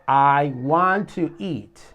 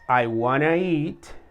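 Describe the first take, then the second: First: Want to is said as two full words. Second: Want to is blended into one word, wanna. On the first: "To want"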